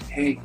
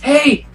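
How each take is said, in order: First: It is said softly. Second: It is said loudly.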